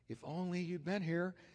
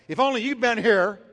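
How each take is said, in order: First: It is said in a soft, reverent tone. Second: It is said in an angry, accusing tone. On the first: The speaker grieves but still trusts the listener. "what came out of her was totally different" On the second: The speaker blames the listener for the loss. "I picture it this way"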